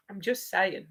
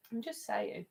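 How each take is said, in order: First: Said in the usual way. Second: Same words again, much softer, half to herself; quiet repeat. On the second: Real, not acted. Repeating herself to friends who ignored her, softly. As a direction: let I'm just saying fall away into a soft aside. Repeats the remark after no reply.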